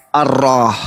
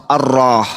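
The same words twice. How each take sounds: The two takes are said the same way.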